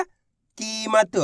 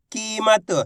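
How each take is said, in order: First: कीमत drawn out very slowly, syllable by syllable; stretched word. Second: Said in the usual way. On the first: Shown as a demonstration. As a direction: slowly sound out कीमत so each letter is heard. (कीमत को धीरे-धीरे खींचकर बोलना) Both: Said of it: "कीमत के अंदर पहला अक्षर".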